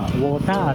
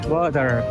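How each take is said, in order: First: It is said in a Thai English accent. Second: It is said in an American English accent. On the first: It is easily understood by Thai staff. The speaker calls it right. "これタイではウォーターって発音します" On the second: Thai staff will answer with a puzzled 'huh'. The speaker calls it wrong. "アメリカっぽく言っても"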